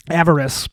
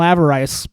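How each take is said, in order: First: "avarice" ending in a short "iss"; corrected avarice. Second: "avarice" ending like "ice"; mispronounced avarice. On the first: Comic correcting himself, "avarice" said as AV-uh-riss. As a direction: say "avarice" as AV-uh-riss, with a weak last syllable. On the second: Comic fighting his own personal vice, "avarice" said with an "ice" ending. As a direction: say "avarice" as AV-uh-rice, rhyming with "rice". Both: Real, not acted.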